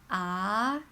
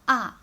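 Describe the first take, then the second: First: The syllable is said with the second tone. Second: The syllable is said with the fourth tone. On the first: "The second tone is ah" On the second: "With the fourth tone, it will be ah"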